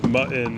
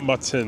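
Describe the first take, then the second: First: The T sounds are silent. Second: The T sounds are clearly pronounced. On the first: The speaker calls it right. "I think the T's are silent" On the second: The speaker calls it wrong. "It's not mutton"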